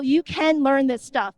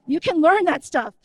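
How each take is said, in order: First: You leaned on, slowed right down; slow emphatic you can learn this stuff; stress on you, slower. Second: Said in the usual way. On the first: Shown as a demonstration. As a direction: hit the word you and take it slow. Repeats the line for emphasis.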